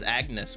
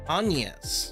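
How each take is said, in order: First: The name does not sound like onions. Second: The name sounds like the word onions. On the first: The speaker calls it wrong. "I thought it was going to be pronounced as Agnes" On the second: The speaker calls it right. "It's kind of like saying onions"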